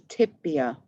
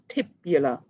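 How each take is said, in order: First: The word is said without an l, tibia. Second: The word has an extra l sound, tibula. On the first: The speaker calls it right. "but I corrected myself. So we say tibia" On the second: The speaker calls it wrong. "I wasn't saying that correctly to start with"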